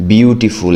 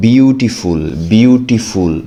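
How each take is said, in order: First: Said in the usual way. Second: বিউটিফুল drawn out slowly, each syllable distinct. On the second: Shown as a demonstration. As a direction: sound out বিউটিফুল in separate slow beats. (বিউটিফুল শব্দাংশ ভেঙে ভেঙে ধীরে উচ্চারণ) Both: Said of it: "একের অধিক syllable বিশিষ্ট word".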